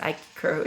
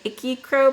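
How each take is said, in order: First: The first part sounds like 'ike', with a long i. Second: The first part sounds like 'icky', with a short i. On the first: The speaker calls it right. "but I think it's Ike Crow" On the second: The speaker calls it wrong. "I always want to say Icky Crow"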